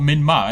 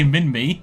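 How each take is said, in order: First: The last syllable rhymes with 'sky'. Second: The last syllable rhymes with 'see'. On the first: The speaker calls it wrong. "not min my, because min my is stupid" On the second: The speaker calls it right. "I say min me"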